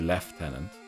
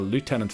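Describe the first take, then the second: First: It is said with a British pronunciation. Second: It is said with an American pronunciation. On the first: "British it would be Lieutenant" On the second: "Lieutenant for Americans"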